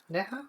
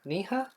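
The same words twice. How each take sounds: First: Neha with an eh vowel, rising high; alternative name pronunciation. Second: Niha with a long ee, questioning rise; tentative name pronunciation. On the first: Streamer retrying a viewer's name, tentative Neha as NEH-ha. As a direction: offer Neha as NEH-ha, questioning. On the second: Streamer checking a viewer's name, tentative Niha as NEE-ha. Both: Shown as a demonstration. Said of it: "the way you pronounce my name".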